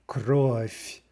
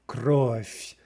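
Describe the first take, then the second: Both takes have the same delivery.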